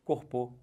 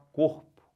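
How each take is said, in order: First: "Corpô" stressed on the last syllable, closed o; wrong stress on PÔ. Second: "corpo" with a strong, loud first syllable COR; stress on COR. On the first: Teacher testing a circumflex, "Corpô" stressed on PÔ. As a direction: shift the force in "Corpô" to the final PÔ. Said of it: "Bota um acento circunflexo ali e fala isso". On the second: Teacher giving the correct form, "corpo" stressed on COR. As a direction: force the COR in "corpo", weak final syllable. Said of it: "pode forçar à vontade no cor". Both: Shown as a demonstration.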